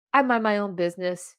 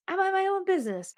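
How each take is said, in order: First: Said in the usual way. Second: Quick, high self-reminder; high-pitched repeat. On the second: Retold or imitated. Podcaster telling herself to stay out, high quick voice. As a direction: say it fast, way up in pitch.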